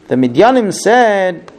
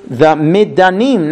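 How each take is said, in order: First: "Midyanim" with a y glide, mid-YAH-nim; "Midyanim" said with the y, first slip; "Midyanim" with a y sound before the correction; mispronounced name. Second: "Midanim" said mi-DAH-nim, no y glide; "Midanim" fixed, plain d straight into a; "Midanim" corrected, dropping the y; corrected name. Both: Shown as a demonstration.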